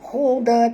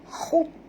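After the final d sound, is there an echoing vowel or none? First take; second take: echo; none. First: The final d bounces into a short vowel. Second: The final d stops short without a vowel. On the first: The speaker calls it wrong. "jangan baca huda huda, tak mau ya, salah tu" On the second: The speaker calls it right. "Siyaban khud khud ya"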